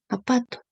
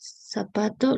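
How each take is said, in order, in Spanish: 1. La palabra empieza con una vocal. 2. La palabra empieza con un sonido s. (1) "lo está omitiendo la Z" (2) "en vez de decir zapato"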